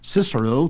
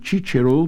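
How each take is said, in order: First: It uses the English pronunciation. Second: It uses the Italian pronunciation. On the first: "to the English speaker" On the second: "became Cicero to the Italian"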